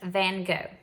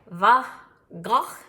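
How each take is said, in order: First: The name is said with an American pronunciation. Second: The name is said the Dutch way, with throaty sounds. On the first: "That's how we would say it here in America" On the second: "originally Dutch, and so it is more like ... like you have a little something in your throat"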